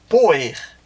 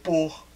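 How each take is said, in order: First: The word has two syllables, ending in -er. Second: The word has one syllable, with no -er ending. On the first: This is the old form of the verb. "era escrito e pronunciado assim" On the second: This is the modern form of the verb. "esta vogal temática caiu"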